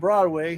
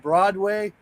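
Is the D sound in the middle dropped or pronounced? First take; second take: dropped; pronounced. First: The D sound in the middle is dropped. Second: The D sound in the middle is pronounced. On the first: The speaker calls it wrong. "They don't even pronounce the D" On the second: The speaker calls it right. "No, you mean Broadway?"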